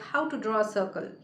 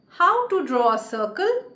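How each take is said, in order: First: The pitch stays flat with no stressed word. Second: The pitch varies with a questioning tune. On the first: It sounds like a remark, not a question. The speaker calls it wrong. "there is no modulation in my voice, I do not stress on any word in the sentence" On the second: It is clearly heard as a question. The speaker calls it right. "the person will clearly understand that I am asking a question"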